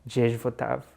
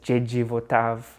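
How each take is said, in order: First: The first word ends without a final vowel. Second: The first word ends with an ee vowel. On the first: The speaker calls it right. "they're just like Jej Votav" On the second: The speaker calls it wrong. "You would read it as Jeji Votav"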